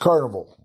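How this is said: It is said with an American English pronunciation. This is how the speaker's home region says it. "I'm from Texas"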